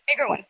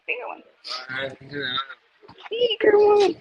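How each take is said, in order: First: Said in the usual way. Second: Excited. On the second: Shown as a demonstration.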